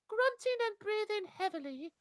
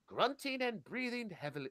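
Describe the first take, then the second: First: It is read in a put-on woman's voice. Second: It is read in the reader's usual voice.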